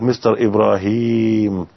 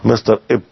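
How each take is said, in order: First: The name is said in full, three syllables. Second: Only the first syllable of the name remains. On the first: The word is still young and intact. "إبراهيم الآن الكلمة في يعني شاب" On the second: The word has died. "ماتت"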